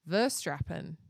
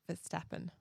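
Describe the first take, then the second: First: The name is said with an R sound. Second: The name is said without an R sound. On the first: The speaker calls it wrong. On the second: The speaker calls it right.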